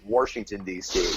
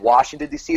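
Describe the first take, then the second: First: Washington is said with an r, like Warsh. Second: Washington is said with no r sound. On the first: "you still say Warsh" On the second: "instead of Washington D C"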